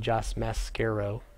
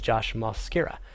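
First: The surname's last syllable has an O vowel. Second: The surname's first syllable has an O vowel. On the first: The speaker calls it wrong. "not the second A, which would be Josh Mascaro" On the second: The speaker calls it right. "like mascara with an O instead of an A. That would be the first A"

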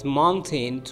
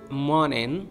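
First: The T is fully released before the N. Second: The T is stopped before the N.

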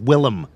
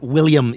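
First: The name is said like Dutch 'Willem'. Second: The name is said like English 'William'. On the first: The speaker calls it right. "it's Willem" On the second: The speaker calls it wrong. "It's not William"

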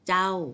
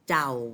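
First: The syllable is said on a falling tone. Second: The syllable is said on a low tone. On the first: "เป็นเสียงโท" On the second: "เป็นเสียงเอก"

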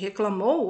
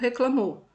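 First: The word ends in the full diphthong 'ou'. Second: The word ends in a plain 'o' vowel. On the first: The speaker calls it right. "ao invés de reclamou" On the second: The speaker calls it wrong. "acaba escrevendo reclamou"

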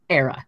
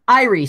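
First: The name starts with an 'air' sound. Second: The name starts with an 'eye' sound. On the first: The speaker calls it right. "Apparently, it's Era" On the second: The speaker calls it wrong. "we've all been calling it Irie Stout"

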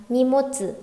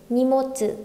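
The two takes are said the same way.

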